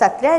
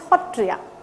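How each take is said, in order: First: The word begins with an s sound. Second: The word begins with an h sound. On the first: This is the Sanskrit form. "In Sanskrit it is Satriya" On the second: This is the Assamese form. "in Assamese it is Hotriya"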